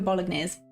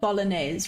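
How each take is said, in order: First: The G in the word is sounded. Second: The G in the word is silent. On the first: This is a personal quirk. "I go bolognese. I pronounce the G" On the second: This is how most people say it. "You go bolognese, right? That's how you say it"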